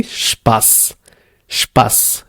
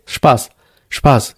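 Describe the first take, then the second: First: "Spaß" with a long, pressed final S; pressed double S. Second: "Spaß" with a short, light final S; single-S pronunciation. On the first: Teacher showing learners eszett, held final S in "Spaß". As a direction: hold the hissing S at the end of "Spaß". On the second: Teacher showing learners one S, light short S in "Spaß". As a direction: let the S in "Spaß" go quickly, no pressure. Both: Shown as a demonstration. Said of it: "if you have only one S".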